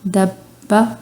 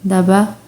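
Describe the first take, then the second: First: The b sound is held and doubled. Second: The b sound is short and single. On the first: The speaker calls it right. "पहले अब बा, ऐसे फिर मुंह खोलना है आपने फ़ौरन" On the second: The speaker calls it wrong. "अब हम इसको ऐसे नहीं पढ़ रहे"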